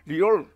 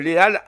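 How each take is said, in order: First: It is pronounced the English way. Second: It is pronounced the French way. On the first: "En anglais, ça serait" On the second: "Je le prononce en, en- en français"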